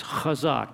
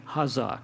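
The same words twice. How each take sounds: First: Chazak with a throaty, scraped ch; guttural ch. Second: Hazak with a simple English h; plain H sound. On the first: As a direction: open chazak on a raspy back-of-throat 'kh'. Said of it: "If you can't do the guttural". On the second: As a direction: start hazak on a soft h, no guttural scrape. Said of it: "It's an H. Just ignore the C". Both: Shown as a demonstration.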